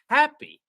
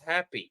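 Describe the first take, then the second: First: The stress is on the first syllable. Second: The stress is on the second syllable. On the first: The speaker calls it right. "it's happy ... P is not as loud as happy" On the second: The speaker calls it wrong. "it's not happy"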